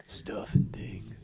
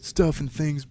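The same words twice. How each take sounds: First: Slow breathy whisper. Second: Said in the usual way. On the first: Pretend. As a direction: hush it out slowly. Repeating catchphrase in whisper.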